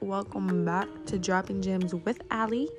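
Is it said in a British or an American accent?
American. It is said in her normal American accent.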